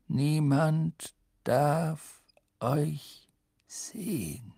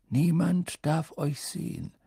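First: "Niemand - darf - euch - sehen" very slowly, word by word; emphatic warning. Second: Measured, serious caution; grave warning. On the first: Headmaster hammering home the rule, slow and emphatic. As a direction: separate every word with a weighty pause. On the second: Headmaster cautioning two pupils, grave and measured. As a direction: warn them soberly in one phrase. First warning, less drawn out. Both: A narrator's reading.

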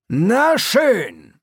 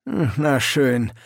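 First: High, loud clipped approval; brisk sergeant. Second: Slow, dry hm then a sigh; mildly unimpressed old sergeant, drawn out; weary sergeant. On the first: Sergeant closing the matter, loud and brisk. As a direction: snap it out, done with it. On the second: Sergeant sizing up the recruits, dry and weary. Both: A narrator's reading.

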